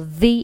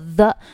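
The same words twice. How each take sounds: First: The word ends in an 'ee' vowel. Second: The word ends in an 'uh' vowel. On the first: The speaker calls it right. "读作the" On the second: The speaker calls it wrong. "不读作the"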